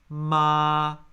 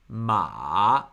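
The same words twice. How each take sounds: First: The syllable is said with the first tone. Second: The syllable is said with the third tone. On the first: "First tone" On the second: "it's a falling and rising tone"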